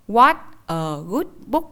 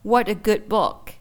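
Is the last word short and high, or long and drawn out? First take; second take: short high; drawn out. First: The last word is short with a sharp high rise. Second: The last word is drawn out and lengthened. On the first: The speaker calls it wrong. "bằng cách là thêm dấu sắc vào" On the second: The speaker calls it right. "mình sẽ phải ngân âm ra nhiều hơn"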